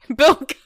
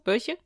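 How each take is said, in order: First: The middle consonant is a hard k sound. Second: The middle consonant is a soft ch sound. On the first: The speaker calls it right. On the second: The speaker calls it wrong.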